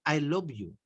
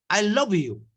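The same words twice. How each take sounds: First: Softer, as if to one person. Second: A touch louder, as if calling to a crowd; called out to a crowd. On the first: Teacher shows saying it to one person, softer. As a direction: tell just one person, softly. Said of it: "a una sola persona". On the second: Teacher shows a singer calling to the crowd, slightly louder. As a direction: announce it to the whole concert hall. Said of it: "Y a una sola persona". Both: Shown as a demonstration.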